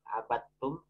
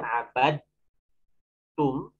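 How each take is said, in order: First: The d sound merges into a doubled t. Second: The d sound is pronounced before the t. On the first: "Jadi dalnya sudah tidak dibaca" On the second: "Aslinya kan abad tum"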